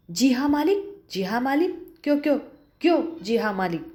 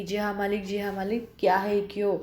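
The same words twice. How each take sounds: First: Angry stammer. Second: Said in the usual way. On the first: Acted. The employer mocks Julia's reply, stammering with rage. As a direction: sputter the words in a rage. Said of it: "गुस्से से तुतलाने लगता है". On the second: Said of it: "बार-बार कह रहा है".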